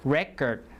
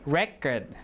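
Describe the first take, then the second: Both takes have the same delivery.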